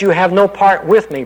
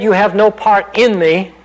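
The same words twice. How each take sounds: First: With stressed and falling. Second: In lifted with a rising tune; stress on in. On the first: Teacher contrasting with against in, stressing with. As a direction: lean on the word with and let it fall. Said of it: "But he says". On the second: Teacher contrasting in with with, stressing in. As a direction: lean on the word in and let it rise. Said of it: "Notice he does not say". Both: Shown as a demonstration.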